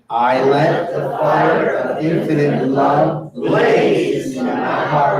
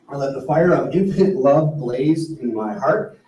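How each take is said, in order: First: The word blaze is emphasized. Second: It is said without special stress on blaze.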